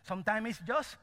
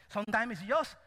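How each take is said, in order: Both takes have the same delivery.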